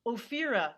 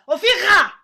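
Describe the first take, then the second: First: Said in the usual way. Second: OPHIRA barked high and very loud, guttural R; "Ophira" as an explosive, hammed-up Israeli correction. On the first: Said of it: "And I went". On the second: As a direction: shout "Ophira" with a throaty, emphatic Israeli R. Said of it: "only a Israeli would correct you".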